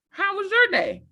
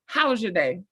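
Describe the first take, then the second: First: Higher, bright eager asking of how was your day; higher eager question. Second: Said in the usual way. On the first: Retold or imitated. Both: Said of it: "I experienced that".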